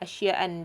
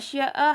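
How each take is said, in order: First: The word ends in a vowel plus n. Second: The word ends in a plain short vowel. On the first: The speaker calls it wrong. "dia tak guna asya'an" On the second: The speaker calls it right. "harakat akhirnya dilafazkan tidak dengan dua fathah"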